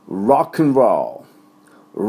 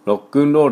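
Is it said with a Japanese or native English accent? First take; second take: native English; Japanese. First: It is said with native English pronunciation. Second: It is said with Japanese katakana pronunciation. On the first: The speaker calls it right. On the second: The speaker calls it wrong.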